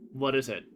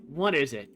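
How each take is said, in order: First: Calmer, lower, low-key question; unbothered, toned-down reply. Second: Said in the usual way. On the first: Shown as a demonstration. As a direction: say it calmly, pitched down. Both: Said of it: "more calmly".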